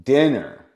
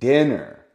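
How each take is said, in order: The two takes are said the same way.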